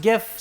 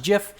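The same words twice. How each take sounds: First: Gif with a hard g, as in gift; lifted "gif", hard g. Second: Jif with a soft j sound; lifted "jif", soft opening sound. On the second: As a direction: say "jif" like the start of jiffy. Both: Shown as a demonstration. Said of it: "some people say it should be pronounced".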